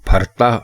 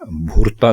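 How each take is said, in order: First: The first vowel is an 'a' sound. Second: The first vowel is a 'u' sound. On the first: The speaker calls it right. "ये भरता है" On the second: The speaker calls it wrong. "भुरता नहीं है"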